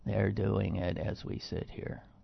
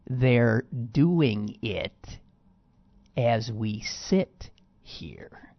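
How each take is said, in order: First: The words are said flatly, with no emphasis. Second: The words are said forcefully, with lively emphasis. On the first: This is how the quoted person actually said it. "He's not vociferous in any way. ... No affect" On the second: This is not how the quoted person actually said it. "Although he didn't say it like that"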